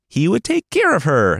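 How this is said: It is said in an overly sweet tone.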